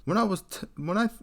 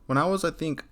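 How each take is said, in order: First: A higher, half-hearted stab at a British accent, abandoned mid-line; botched British accent. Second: Said in the usual way. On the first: Shown as a demonstration. Narrator reading a British poster's story, failed British accent. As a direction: try the British accent and lose it at once. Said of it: "I can't even do a British accent". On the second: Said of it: "let me restart this".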